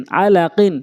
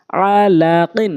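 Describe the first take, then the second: First: Short vowels, syllables run together; quick reading. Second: Drawn-out syllable by syllable reading; slow demo. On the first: Teacher showing how it must be read, quickly. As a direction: read it briskly as one word. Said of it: "দ্রুতটা উচ্চারণ করতে হবে". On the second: Teacher showing learners the word first, slowly. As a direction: stretch each syllable for learners. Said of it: "প্রথমে আমি slow বলছি". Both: Shown as a demonstration.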